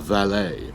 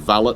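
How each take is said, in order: First: The word is said with a French pronunciation. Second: The word is said with an English pronunciation. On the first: The speaker is trying to appear posh. "you pronounce it French if you're pretending that you're really posh" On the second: The speaker really is posh. "you pronounce it English if you are actually posh"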